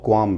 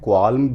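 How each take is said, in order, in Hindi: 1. L की ध्वनि नहीं बोली जाती। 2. L की ध्वनि बोली जाती है। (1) "और क्वाम भी, ये दोनों ही सही हैं" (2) "इसको प्रोनाउंस कर सकते हैं क्वाल्म भी"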